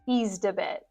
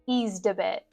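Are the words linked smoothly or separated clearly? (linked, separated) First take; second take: linked; linked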